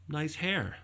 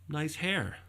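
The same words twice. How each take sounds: First: It sounds like a sincere compliment. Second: The same.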